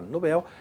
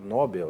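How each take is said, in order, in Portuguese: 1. A tônica está na última sílaba. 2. A tônica está na primeira sílaba. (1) "Nobel é uma oxítona, tanto que o Bel aqui é a pronúncia mais forte" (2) "muita gente transforma ele em paroxítonas"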